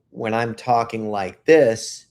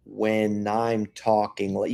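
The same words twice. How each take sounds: First: Said in the usual way. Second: Put-on slow, stretched-out old man delivery. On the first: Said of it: "the old man would probably say". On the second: Shown as a demonstration. Showing how the old man would say it, slowed and stretched. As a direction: draw every word out slowly. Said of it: "really slow it down and stretch it out".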